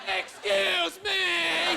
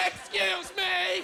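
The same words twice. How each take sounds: First: Slow, high mocking Excuse me; mocking her. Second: Slow, high mock outraged Excuse me; 1 indignant lady. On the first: Man mocking the lady's Excuse me, slow and high. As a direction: parrot her Excuse me with a sneer. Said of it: "I wanted to mock her". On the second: Bumped lady snapping at him, high and indignant. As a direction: stretch out Excuse me like an offended lady. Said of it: "she freaks out".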